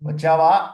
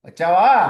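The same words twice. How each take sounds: First: The final vowel is cut off short. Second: The final vowel is drawn out long. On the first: "అక్కడ ఆపేశాను అనుకోండి" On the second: "ఆ వా దగ్గర దీర్ఘం తీశానంటే అర్థం మారిపోయింది"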